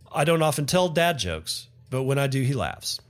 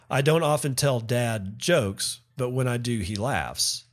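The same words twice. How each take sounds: First: 'Dad jokes' is said as one compound noun. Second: 'Dad' and 'jokes' are said as separate words.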